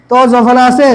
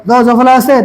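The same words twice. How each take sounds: The two takes are said the same way.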